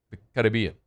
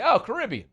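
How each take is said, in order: First: Lower, accented take on Caribbean. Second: Higher, English-style Caribbean; Anglicized Caribbean. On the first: Host showing how locals say it, accented Caribbean. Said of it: "it's the accent". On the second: Host mimicking English speakers, Anglicized Caribbean. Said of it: "when we English it, we just say". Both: Shown as a demonstration.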